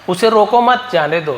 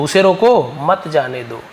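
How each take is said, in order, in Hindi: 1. 'mat' के बाद विराम है। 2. 'roko' के बाद विराम है। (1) "यानी उसे जाने दो" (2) "यानी उस आदमी को रोको, भैया बहुत अच्छा आदमी, उसे मत जाने दो"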